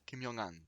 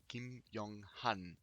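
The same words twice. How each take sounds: First: The syllables run together with a linking sound. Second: The three parts are said separately, without linking. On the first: "à l'oral, on entendra très facilement Kim Young-han" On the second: "Si on fracture son nom en trois parties"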